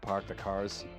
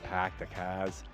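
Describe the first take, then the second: First: Park is said with a clear r sound. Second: Park is said without r, Boston-style.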